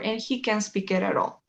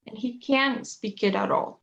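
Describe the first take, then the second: First: "he" stressed, "can't" reduced to sound like can; weight on the subject "he", "can't" passed over lightly. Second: Slow, CAN'T stressed as a negative. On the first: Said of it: "pongo énfasis en el I o en el sujeto". (énfasis en «he», «can't» átono como «can») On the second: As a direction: lean on "can't", its t silent. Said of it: "pongo el énfasis en el can't". (énfasis en «can't», despacio) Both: Shown as a demonstration.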